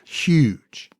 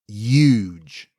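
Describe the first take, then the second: First: The word begins with a clear h sound. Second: The word begins without any h sound.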